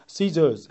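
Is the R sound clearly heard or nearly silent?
nearly silent. The R sound at the end is nearly silent. "거의 R이 들리지 않는 발음"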